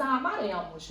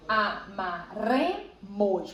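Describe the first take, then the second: First: Said in the usual way. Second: "amaremos" slowly split A - MA - RE - MOS; syllable separation. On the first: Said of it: "Você tem amaremos". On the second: Shown as a demonstration. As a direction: spell out "amaremos" in detached syllables, leaning on RE. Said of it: "você tem o re como sílaba tônica".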